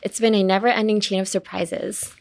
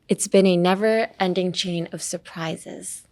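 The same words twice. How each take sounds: First: The voice rises at the end. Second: The voice falls at the end. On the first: The speaker calls it wrong. "Like, don't go up" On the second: The speaker calls it right. "remember to go down"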